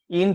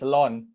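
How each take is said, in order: First: It is said like the word in. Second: It is said like the syllable lon. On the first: The speaker calls it wrong. "In tu salah" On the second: The speaker calls it right. "is pronounced as Lon"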